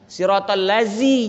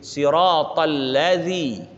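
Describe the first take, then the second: First: The last word has a buzzing 'z' consonant. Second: The last word has a soft 'dh' consonant. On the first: The speaker calls it wrong. "jangan lazi zai" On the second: The speaker calls it right. "huruf jangan bertukar"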